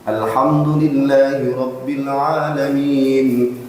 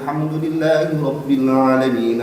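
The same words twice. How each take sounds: First: It is recited at a normal, unhurried pace. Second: It is recited a little faster.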